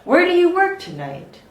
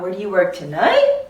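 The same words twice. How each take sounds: First: The voice falls at the end. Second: The voice rises at the end. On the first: The speaker calls it right. "It goes down for more information" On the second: The speaker calls it wrong. "It's not"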